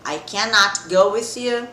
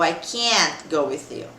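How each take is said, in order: First: "cannot" said in full, slow and clear; full form cannot. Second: "can't" clipped into one syllable, slow; contracted can't. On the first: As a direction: spell out "cannot" as one slow word. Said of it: "Eu posso tanto". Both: Shown as a demonstration.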